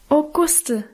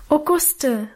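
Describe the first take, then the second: First: Put-on child crying out, higher, with a hug; a fond, stormy outburst; girl hugging Guste, calling her name; eager call. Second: Put-on child calling out to Guste, pitched up; a glad, pleading cry; girl greeting Guste eagerly, voice raised. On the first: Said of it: "rief ich wieder". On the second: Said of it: "rief ich ihr entgegen". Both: A narrator's reading.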